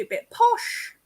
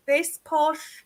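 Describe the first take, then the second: First: Said in the usual way. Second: Lightly put-on posh English voice; posh English accent. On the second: Shown as a demonstration. Voice actor showing the host a posh English accent. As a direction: give a small sample of posh English. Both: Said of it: "I can do a bit posh".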